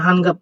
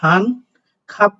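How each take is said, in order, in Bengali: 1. দ্বিতীয় শব্দটি g ধ্বনি দিয়ে শুরু হয়। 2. দ্বিতীয় শব্দটি k ধ্বনি দিয়ে শুরু হয়। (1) "নিঃসন্দেহে আপনি হান গাপ পড়বেন, গ পড়বেন।" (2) "হান খাপ পড়বেন নাকি"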